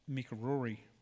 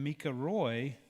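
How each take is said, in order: First: An extra R is blended in, giving Rory. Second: The surname is said as one syllable, Roy. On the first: The speaker calls it wrong. "I have a tendency to blend and add an extra R in there" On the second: The speaker calls it right. "anytime I say that name, I have to pause"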